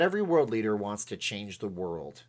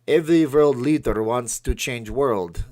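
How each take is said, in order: First: It is spoken in the speaker's ordinary accent. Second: It is spoken with an imitated Russian accent.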